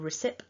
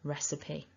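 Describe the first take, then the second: First: The word ends on a p with no vowel. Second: The word ends with a sounded final vowel. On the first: The speaker calls it wrong. "So it's not recipe or recip" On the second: The speaker calls it right. "We need that E"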